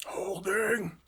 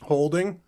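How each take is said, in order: First: Breath-only playful whisper; whispered echo. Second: Raised, louder playful question; questioning echo. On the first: Co-host echoes the host's "are you holding", whispering. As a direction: whisper the word back, no voice. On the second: Co-host echoes the host's "are you holding", questioning. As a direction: echo it back higher and louder. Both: Pretend.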